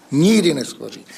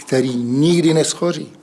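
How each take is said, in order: First: NIKDY punched, falling at the end; stress on NIKDY. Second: Nikdy said with weight and falling; stress on nikdy. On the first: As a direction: hit the word Nikdy hard. (důraz na Nikdy, klesavě) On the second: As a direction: lean on the word nikdy. (důraz na slovo nikdy) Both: Shown as a demonstration. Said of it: "Tam bych na to dal ten důraz".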